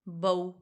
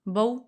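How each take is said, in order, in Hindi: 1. स्वर की ध्वनि लंबी खींची गई है। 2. स्वर की ध्वनि छोटी रखी गई है। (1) "बऊ गलत हो जाएगा, खींचना नहीं है" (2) "सिंपल"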